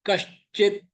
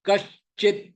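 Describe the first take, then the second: No difference in how they are said.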